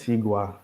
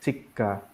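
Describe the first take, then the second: First: The second syllable starts with a plain consonant. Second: The second syllable starts with a tense consonant. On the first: The speaker calls it wrong. "it's not" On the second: The speaker calls it right. "The same with like dentist, it's chikka"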